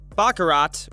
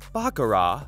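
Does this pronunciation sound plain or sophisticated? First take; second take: plain; sophisticated. First: It is said in a plain, everyday way. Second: It is said in a fancier, sophisticated way.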